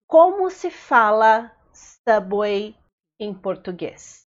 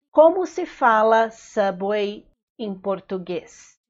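First: Slow chunked model phrase. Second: Said in the usual way. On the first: Shown as a demonstration. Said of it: "teacher models phrase in chunks". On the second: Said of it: "teacher repeats phrase whole".

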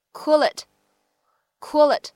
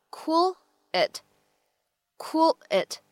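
First: "cool it" run together as "coo-lit"; linked words. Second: "cool it" as two words, gap before "it"; separated words. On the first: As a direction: carry the L of "cool" straight onto "it". Linked take after separated take. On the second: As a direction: say "cool" and "it" apart, carefully. Slow take before the linked take. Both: Shown as a demonstration.

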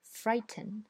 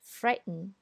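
First: British frighten with a clear t; British English. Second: American frighten with a glottal t; American English. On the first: Teacher reads frighten in a British accent. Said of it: "我先读英音". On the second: Teacher reads frighten in an American accent. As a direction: frighten said the American way, t swallowed before the n. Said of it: "再读美音". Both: Shown as a demonstration.

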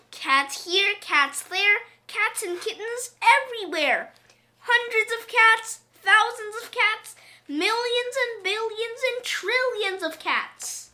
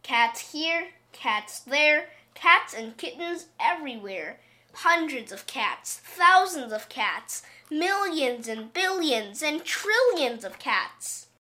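First: Put-on high, loud, aghast old woman; old woman crying out. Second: Said in the usual way. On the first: A narrator's reading. Old woman aghast at endless cats, high loud cry. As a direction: list them in a high, loud outcry. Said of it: "she cried".

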